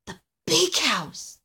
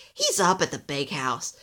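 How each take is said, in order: First: High, slow, daunted echo; awed little Alistair. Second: Lightly voiced grumpy elf, a touch low. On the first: Little elf thinking of Santa's scary house, daunted. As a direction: stretch it out high in dread. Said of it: "thought Alistair". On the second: Busy elf answers little Alistair, grumpy. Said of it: "said a grumpy elf". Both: A narrator's reading.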